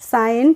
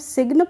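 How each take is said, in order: First: No g sound is pronounced at all. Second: A g sound is pronounced before the n. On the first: The speaker calls it right. "साइन पढ़ते हैं" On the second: The speaker calls it wrong. "इसको हम सिग्न पढ़ते हैं, नहीं पढ़ते हैं"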